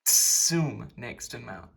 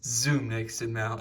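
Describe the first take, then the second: First: Zum starts with a sharp ts sound. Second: Zum starts with a buzzing z sound. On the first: The speaker calls it right. "It is bis ts, ts" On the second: The speaker calls it wrong. "It is not pronounced Z, not bis zum nächsten Mal"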